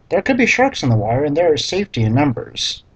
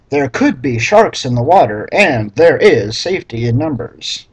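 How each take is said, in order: First: Quick flat read. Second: Louder reread leaning hard on "could" and "there"; mocking reread. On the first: Reader skimming the awful line, quick and flat. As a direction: rattle the line off fast, unimpressed. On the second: Reader rereading the clunky line aloud, mock emphasis. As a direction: read "there could be sharks" again, punching "could" to mock it. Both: Shown as a demonstration. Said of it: "what an awful sentence".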